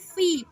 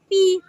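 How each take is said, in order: First: It starts with a breathy f sound. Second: It starts with a p sound, no air. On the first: The speaker calls it right. "tapi fi karena ini huruf fa ... Jadi agak ada angin" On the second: The speaker calls it wrong. "bukan pi"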